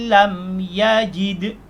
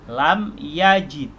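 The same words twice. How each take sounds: The two takes are said the same way.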